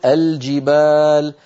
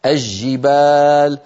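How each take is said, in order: First: الجبال slowly as "al-jibaal", L clearly sounded; classical izhar. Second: الجبال as "aj-jibaal", L lost in a doubled j; colloquial Levantine merging. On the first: Shown as a demonstration. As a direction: say الجبال with a distinct L before j. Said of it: "الفصيح أن نقول". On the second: Retold or imitated. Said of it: "بعض العامة وخاصة في بلاد الشام يقولون".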